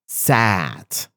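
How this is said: The vowel is a short open a sound. "I prefer sat"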